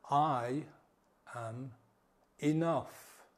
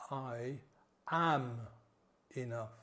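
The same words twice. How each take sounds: First: Slow mantra leaning hard on "I" and "enough"; stress on I and enough. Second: Slow mantra leaning hard on "am"; stress on AM. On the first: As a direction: hit "I" and "enough", let "am" fall away. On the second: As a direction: hit the word "am" alone. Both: Shown as a demonstration. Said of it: "Put emphasis on different words".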